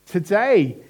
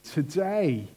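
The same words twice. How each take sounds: First: "today" punched high and loud; a forceful, proclaimed "today"; emphatic repeat. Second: Said in the usual way. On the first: Acted. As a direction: hit "today" hard, raising pitch and volume. Preacher repeats quoted word for emphasis.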